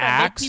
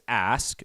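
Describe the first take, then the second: First: The k sound comes before the s. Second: The s sound comes before the k. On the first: The speaker calls it wrong. "not axe" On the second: The speaker calls it right. "It is ask"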